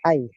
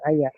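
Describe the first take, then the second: First: The word is said as one short syllable. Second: The word is said with a doubled y and ending vowel. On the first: It means that is to say. The speaker calls it right. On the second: It means whichever or whatever. The speaker calls it wrong. "Bukan ayah"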